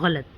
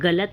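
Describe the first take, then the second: First: The first consonant is a gargled gh. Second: The first consonant is a plain g. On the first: The speaker calls it right. "गरारा करते वक्त जिस तरह की आवाज़" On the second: The speaker calls it wrong. "ना बोलें"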